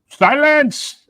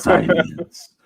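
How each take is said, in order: First: A put-on voice imitating a movie warrior king. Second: A put-on voice imitating a movie monster character. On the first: "do silence, but as yeah, as Winston Duke" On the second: "Now do it in your Venom voice"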